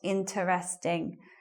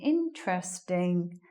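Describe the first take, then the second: First: It is said with four syllables. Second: It is said with three syllables. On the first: The speaker calls it wrong. "not interesting" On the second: The speaker calls it right. "Three syllable word"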